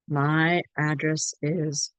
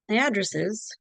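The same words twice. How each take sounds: First: Each word is said clearly and separately. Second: The words are run together and linked. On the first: "say nice and clear" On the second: "but understand"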